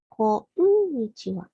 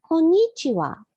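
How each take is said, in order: First: こんにちは in five even syllables, こ-ん-に-ち-は; correct pronunciation. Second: こんにちは said high and loud as the mistake; wrong pronunciation. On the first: Teacher models the right way, plainly. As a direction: say こんにちは with the ん as its own beat. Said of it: "pronounced as こんにちは". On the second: Teacher demos the wrong way, high and loud. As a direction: show こんにちは the wrong way, raised. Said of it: "Be careful not to pronounce it as". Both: Shown as a demonstration.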